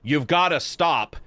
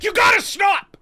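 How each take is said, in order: First: It is said softly, without force. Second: It is said loudly, with strong force. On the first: The speaker calls it wrong. "when he says like" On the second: The speaker calls it right. "when somebody forcefully is like"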